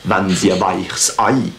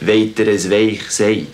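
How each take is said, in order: First: It is spoken in a Basel Swiss German accent. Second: It is spoken in a Bernese Swiss German accent. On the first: "un Balois dit la même phrase" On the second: "ça c'est bernois"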